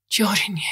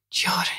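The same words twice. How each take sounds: First: Said in the usual way. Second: A faint whispered call. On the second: A narrator's reading. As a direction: breathe the name out softly. Mother calls name again, whispered.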